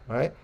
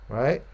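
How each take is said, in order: Both takes have the same delivery.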